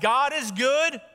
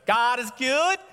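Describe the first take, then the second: First: It is said in a plain voice. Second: It is said with a twangy accent.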